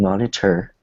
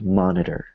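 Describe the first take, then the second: First: The T is a hard, crisp sound. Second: The T is a weak, soft sound. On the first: The speaker calls it wrong. "like a hard T" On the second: The speaker calls it right. "it's more like monitor"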